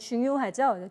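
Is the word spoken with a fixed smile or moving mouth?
moving mouth. The mouth shape changes with each vowel. The speaker calls it right. "우, 요, 아, 요 이렇게 움직이잖아요"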